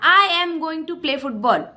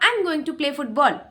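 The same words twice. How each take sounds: First: Every word is said fully and separately. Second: The words are contracted and run together. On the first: "मैंने कहा" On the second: "this is the use of contractions"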